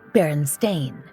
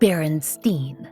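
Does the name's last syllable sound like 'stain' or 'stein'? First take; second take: stain; stein. First: The last syllable sounds like 'stain'. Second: The last syllable sounds like 'stein'. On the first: The speaker calls it right. "It's Berenstain, B E R E N S T A I N" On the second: The speaker calls it wrong. "B E R E N S T E I N. Except that's not how the name is spelled or pronounced"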